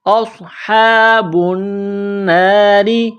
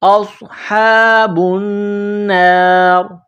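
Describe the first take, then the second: First: The final r carries a short 'i' vowel. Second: The word ends on the r, no vowel. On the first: The reading carries on without stopping. "रॉ ज़ेर री" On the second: The reading stops at this word. "वक़फ़ करेंगे तो रॉ को साइलेंट करेंगे"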